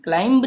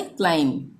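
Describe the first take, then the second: First: क्लाइंब with a voiced b after the m; loud क्लाइंब, sounding the final b; pronounced B. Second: क्लाइम closing on m, no b; lower-pitched क्लाइम, ending on a hummed m; silent B. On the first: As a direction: release a b at the end of क्लाइंब. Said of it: "क्लाइंब नहीं बोलेंगे". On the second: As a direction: drop the b at the end of क्लाइम. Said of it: "ये इसका उच्चारण नहीं होगा". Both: Shown as a demonstration.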